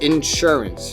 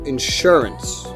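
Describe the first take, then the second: First: The stress is on the first syllable. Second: The stress is on the second syllable.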